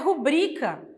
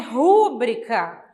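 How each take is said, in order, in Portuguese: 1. A tônica está na segunda sílaba. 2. A tônica está na primeira sílaba. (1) "é a mais forte, o bri" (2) "o correto não é rúbrica"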